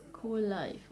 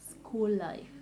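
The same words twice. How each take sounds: The two takes are said the same way.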